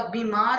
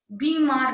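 First: Said in the usual way. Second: बीमार with an exaggerated first vowel; wrong vowel. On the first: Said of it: "होता है". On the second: Shown as a demonstration. Teacher correcting a misspelling, बीमार with overdone first vowel. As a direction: lean hard on "bee" in बीमार. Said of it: "नहीं होता".

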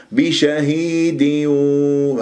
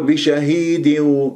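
First: بشهيد with the kasra on the dal given its full length; slow recited بشهيد with full kasra. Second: بشهيد with the final kasra on the dal cut short; wrongly snatched kasra in بشهيد; wrong clipped kasra. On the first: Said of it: "هذا هو إتمام الكسر". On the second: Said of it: "وتختلس لي كسرة حرف". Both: Shown as a demonstration.

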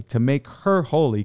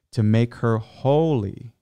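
First: "to make her holy" read slower, higher, leaning on "holy"; slow down and press on "holy"; stress on holy. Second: Said in the usual way. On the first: Shown as a demonstration. Reading Ephesians to listeners, stressing "holy". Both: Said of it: "I'm emphasizing holy".

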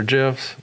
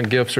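First: Gifs with a soft g, like jifs. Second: Gifs with a hard g as in gift. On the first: Offering the other way to say the file type, soft-g gifs. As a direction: say gifs starting with a j sound. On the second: Offering both ways to say the file type, hard-g gifs. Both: Shown as a demonstration. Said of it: "gifs or gifs".

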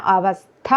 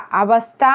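First: അവസ്ഥ split before a firm breathed "thha"; emphatic aspirate. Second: അവസ്ഥ with a plain unbreathed "tha"; ordinary t. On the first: Teacher saying to pronounce firmly, stressed aspirate in അവസ്ഥ. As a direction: hold the s, then press the final syllable of അവസ്ഥ. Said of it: "ഉറപ്പിച്ചു പറയണം". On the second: Teacher showing the ordinary sound to avoid, plain t in അവസ്ഥ. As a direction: say അവസ്ഥ with a light last syllable. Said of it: "സാധാരണ തായല്ല". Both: Shown as a demonstration.

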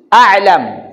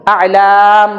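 First: A'lam with a short "lam", not drawn out; short final syllable. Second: A'lam with a long, drawn-out "laam"; long final syllable. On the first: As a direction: keep the "lam" in a'lam brief. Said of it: "Wala siyang stress sound". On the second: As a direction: stretch the "lam" in A'lam. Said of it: "Mahaba yung lam". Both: Shown as a demonstration.

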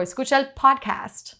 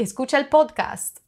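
First: Spanish phrase with podcast in American English; English-accented podcast. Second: Higher-pitched, podcast said with Spanish vowels; Spanish accent. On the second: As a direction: say podcast the Spanish way, "pohd-kahst". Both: Shown as a demonstration. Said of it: "it just sounds so different".

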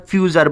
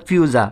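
First: "ফিউচার" with an audible r at the end; final r sounded. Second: "ফিউজা" ending in an open aa; final r dropped. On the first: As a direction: pronounce the r closing "ফিউচার". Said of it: "অথবা আর উচ্চারিত হবে". ("ফিউচার" শেষে র স্পষ্ট করে) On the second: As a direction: let "ফিউজা" end on aa, no r. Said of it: "আ উচ্চারিত হবে". ("ফিউজা" শেষে র ছাড়া, আ দিয়ে) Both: Shown as a demonstration.

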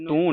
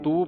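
First: ਤੂੰ with a nasal ending; the misreading ਤੂੰ, vowel nasalised; nasalised vowel, mistaken. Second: ਤੂੰ as a pure oral "tu"; no nasalisation. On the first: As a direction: say ਤੂੰ with the uu through the nose. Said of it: "ਇਹਨੂੰ ਤੂੰ ਨਹੀਂ ਪੜ੍ਹਨਾ". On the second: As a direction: say ਤੂੰ without any nasal sound. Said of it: "ਤੂੰ ਪੜ੍ਹਨਾ ਹੈ". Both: Shown as a demonstration.

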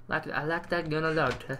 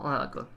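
First: Playful hint of an Italian accent; mock Italian accent. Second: Said in the usual way. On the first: Gamer idly admiring a gun to viewers, mock Italian accent. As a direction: slip into a put-on Italian accent. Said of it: "Don't know why I'm doing that accent". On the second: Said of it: "doing that accent".

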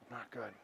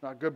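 First: Very low, barely audible murmur; downcast reply. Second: Low, subdued reply with a slight quiver; little quiver. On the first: Homeless man answering the pastor, quietly downcast. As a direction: answer softly, sunk and dejected. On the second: Homeless man grieving his mom, slightly quivering. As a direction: imitate someone close to tears, mildly. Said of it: "started getting a little quiver". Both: Retold or imitated.

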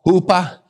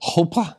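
First: "Hupa" tried with an oo vowel; "Hupa" as a tentative foreign word; attempted Hebrew word. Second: "Hupa" softer, with an oh vowel; "Hupa" as a quieter stab at Hebrew; second pronunciation attempt. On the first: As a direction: try "Hupa" as HOO-pah, questioningly. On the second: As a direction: try "Hupa" as HOH-pah, unsure. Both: Shown as a demonstration. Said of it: "I can't say it with that Hebraic accent".

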